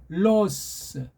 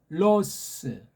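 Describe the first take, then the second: Both takes have the same delivery.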